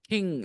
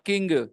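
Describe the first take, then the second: First: The word ends in a nasal, no g sound. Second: The word ends with an audible g sound. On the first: The speaker calls it right. "there is no sound for g. It is just mm" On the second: The speaker calls it wrong. "not king"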